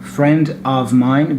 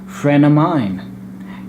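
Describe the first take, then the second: First: The v sound in 'of' is pronounced. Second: The v sound is dropped, words run together.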